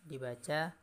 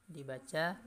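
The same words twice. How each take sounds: No difference in how they are said.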